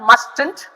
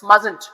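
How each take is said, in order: First: The T in the middle is pronounced. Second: The T in the middle is silent. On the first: The speaker calls it wrong. "this is not mustn't" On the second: The speaker calls it right. "There is a T in between, but we still call it mustn't"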